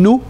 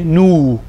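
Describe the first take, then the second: First: The vowel is short. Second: The vowel is lengthened. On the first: The speaker calls it wrong. "instead of saying nu" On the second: The speaker calls it right. "you would say nu"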